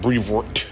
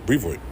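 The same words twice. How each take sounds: First: Every sound of the name is carefully pronounced. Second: The name is said quickly and loosely. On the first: The speaker is overthinking the name. The speaker calls it wrong. "You putting too much pronunciation" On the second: This is how locals say it. The speaker calls it right. "That's the way you say it"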